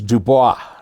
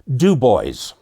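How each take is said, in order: First: The stress falls on the last syllable. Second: The stress falls on the first syllable. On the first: It is the French way of saying it. "is Dubois in French" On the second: It is how the residents say it. "put the emphasis on the first syllable"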